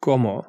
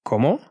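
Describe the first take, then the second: First: Said in the usual way. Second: Cómo? with a rising question tune. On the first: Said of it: "There is a different meaning". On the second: Shown as a demonstration. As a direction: ask "Cómo?", lifting the last syllable. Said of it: "when used as questions".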